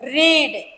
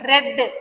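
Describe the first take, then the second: First: The vowel is long, like in 'need'. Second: The vowel is short, like in 'bed'. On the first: It is the present tense form. "ஆனா நம்மளுடைய உச்சரிப்பு, நம்மளுடைய pronunciation வேற" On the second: It is the past tense form. "ஆனா நம்மளுடைய உச்சரிப்பு, நம்மளுடைய pronunciation வேற"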